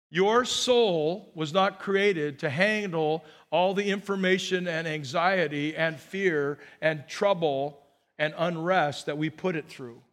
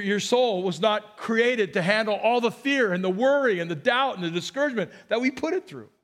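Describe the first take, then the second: First: Measured, weighty preaching pace; unhurried first statement; slow, deliberate statement. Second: More forceful, higher preaching delivery; insistent restatement, picking up pace toward the end; emphatic repeat. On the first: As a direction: spell it out slowly, word by word. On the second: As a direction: drive "soul" and "fear" home with raised energy. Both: Real, not acted. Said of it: "Let me just say it again".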